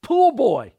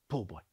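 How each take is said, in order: First: Loud, high-pitched holler; calling out. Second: Much lower and softer; low disbelieving echo. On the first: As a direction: holler it like summoning the help. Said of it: "he calls out". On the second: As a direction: repeat it quietly to yourself. Echoes the insult to himself. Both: Retold or imitated.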